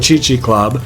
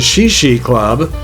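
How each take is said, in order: First: The name begins with a hard 'ch' sound. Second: The name begins with a soft 'sh' sound. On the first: The speaker calls it right. "they referred to it as the Chi Chi Club" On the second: The speaker calls it wrong. "some of you will probably pronounce it Shishi Club"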